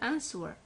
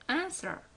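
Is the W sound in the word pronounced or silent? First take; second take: pronounced; silent. First: The W sound is pronounced. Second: The W sound is silent. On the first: The speaker calls it wrong. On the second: The speaker calls it right.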